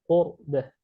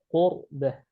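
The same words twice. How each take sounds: No difference in how they are said.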